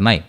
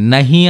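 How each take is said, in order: First: The word is said without an 'h' sound. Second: The word is said with an 'h' sound. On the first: "హాని పలకరనమాట వాళ్ళు" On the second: "నహీలో హీ ఉంది గదా!"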